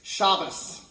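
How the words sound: The word ends with an S sound. "but when they pronounce it, it's Shabbos"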